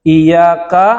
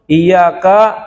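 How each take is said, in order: The two takes are said the same way.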